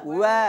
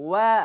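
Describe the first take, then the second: No difference in how they are said.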